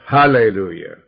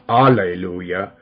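First: The word begins with an h sound. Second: The word begins without an h sound. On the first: The speaker calls it right. "but Hallelujah. Let's say it right" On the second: The speaker calls it wrong. "Not Alleluia"

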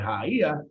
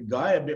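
First: The word begins with an H sound. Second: The word begins with a hard G sound. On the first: It names the one in search of the sacred breath. The speaker calls it right. "you pronounce the G in the old language as an H" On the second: It does not carry the true essence of the being. The speaker calls it wrong. "People keep pronouncing it this way"

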